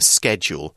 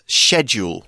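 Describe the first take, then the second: First: The word begins with a hard 'sk' sound. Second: The word begins with a soft 'sh' sound. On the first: "you'll probably be more used to saying schedule" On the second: "in the U K often gets pronounced as schedule with a sort of soft S C sound"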